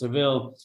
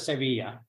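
First: The name ends with an l sound. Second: The name ends with an open vowel sound. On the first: This is how foreigners say the name. "so it's Seville for you know foreigners" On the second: This is how locals say the name. "They pronounce it Sevilla"

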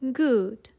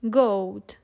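First: The vowel is a long oo sound. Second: The vowel rhymes with load. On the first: This is the pronunciation from Shakespeare's time. "they all sounded like we say the word food today" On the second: This is the 14th and 15th century pronunciation. "they would rhyme with the word load"

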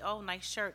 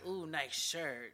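First: It is said in a flat, matter-of-fact tone. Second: It is said in a flirtatious, suggestive tone.

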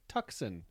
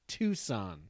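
First: Tucson is pronounced as it is read from spelling. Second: Tucson is pronounced the way local people say it. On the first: The speaker calls it wrong. "after I just pretty mispronounced your home" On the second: The speaker calls it right. "They're like, ah, it's Tucson"

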